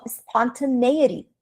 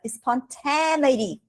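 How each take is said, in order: First: "spontaneity" stressed late, spon-tuh-NAY-ity; native speaker's pronunciation. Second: "spontaneity" wrongly stressed on TAN, spon-TEN-ity; mistaken pronunciation. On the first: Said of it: "O cara falou spontaneity". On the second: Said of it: "Eu falava spontaneity". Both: Shown as a demonstration.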